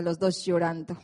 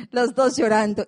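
First: Said in the usual way. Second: Los dos llorando said again louder; emphatic repeat. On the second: Real, not acted. Telling the church both came home crying, emphatic and louder.

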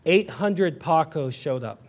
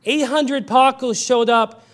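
First: Slow, low, dry delivery of the joke; deadpan punchline. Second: Slow and heavy, now meant sadly; earnest sorrow. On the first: Preacher telling the Paco joke, deadpan and slow. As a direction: let the punchline land quietly for a laugh. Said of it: "it's funny". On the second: Preacher turning the joke into sorrow, slow and earnest. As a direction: retell the joke as a heartbreak. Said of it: "it's also deeply sad". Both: Acted.

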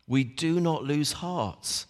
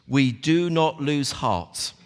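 First: Softer, slow stress on "not"; repeated softly. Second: Slow, firm stress on "do"; read verse. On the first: Preacher repeating the verse to the church, soft and slow. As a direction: quietly press "not". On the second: Preacher reading the verse aloud, firm and slow. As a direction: land on "do" slowly. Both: Shown as a demonstration.

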